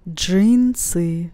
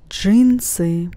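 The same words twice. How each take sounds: The two takes are said the same way.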